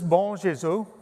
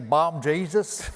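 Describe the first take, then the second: First: It is said in a plain accent. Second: It is said in a Southern US accent.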